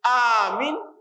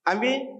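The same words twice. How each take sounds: First: The first vowel is held long. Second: No vowel in the word is lengthened. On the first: "kalau alifnya di ahkamul alif" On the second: "amin tidak ada panjangnya, tidak ada ahkamul matnya"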